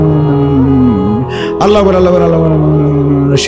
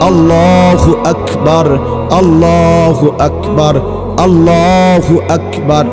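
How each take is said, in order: First: The phrases are rushed together very quickly. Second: Each phrase is said slowly, one per breath. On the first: The recitation is done hurriedly, like a machine. The speaker calls it wrong. "দিলে মেশিনের মতো পড়েন, দিয়ে তো তাড়াহুড়া করেন" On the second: Each phrase is given its full due. The speaker calls it right. "প্রত্যেকটা উচ্চারণ করতে হবে এক নিঃশ্বাসে একবার"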